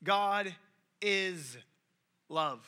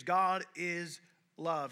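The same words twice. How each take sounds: First: Each word set apart with a pause, "God", "is", "love."; preacher reading the verse aloud, "God is love." with pauses between words; slow, spaced quote. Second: "God is love." drawn out very slowly, weight on "God"; preacher mimicking what most people hear, a slow "God is love."; slow, stretched quote. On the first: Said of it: "the verse ends". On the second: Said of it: "most everyone just hears". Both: Shown as a demonstration.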